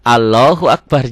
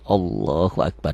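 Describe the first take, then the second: First: The L in Allah is pronounced thin and light. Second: The L in Allah is pronounced thick and heavy. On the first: The speaker calls it wrong. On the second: The speaker calls it right. "Kapan tebal? Kalau sebelum lafaz Allah baris di atas"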